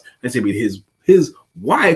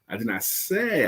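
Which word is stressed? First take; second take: wife; say. First: The stress falls on the word wife. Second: The stress falls on the word say. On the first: It may have been a different victim. "It could have been his child" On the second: It may have been implied instead. "I could have implied it"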